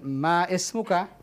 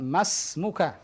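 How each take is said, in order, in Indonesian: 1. Ma dan ismuka dipisahkan dengan i. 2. Ma langsung menyambung ke smuka tanpa i. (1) "Bukan ma ismuka. Hadza khata" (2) "lihat di sini, ikhwan, masmuka"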